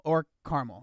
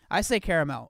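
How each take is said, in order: First: "caramel" said as CAR-mul; two-syllable caramel. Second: "caramel" said as KAIR-uh-mel; three-syllable caramel. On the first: Streamer showing viewers his second way, "caramel" as CAR-mul. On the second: Streamer showing viewers his first way, "caramel" as KAIR-uh-mel. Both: Shown as a demonstration. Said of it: "I literally mix the two".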